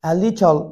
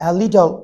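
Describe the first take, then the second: Both takes have the same delivery.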